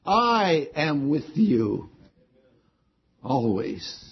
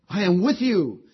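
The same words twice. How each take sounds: First: Slow down and lean on "I", no one else; stress on I. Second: "I am with you" said firmly with the weight on "with"; emphatic promise. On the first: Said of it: "And the word I, I, I myself". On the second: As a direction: land "with" like a solemn promise. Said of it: "this word lo is an emphatic word". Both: Shown as a demonstration.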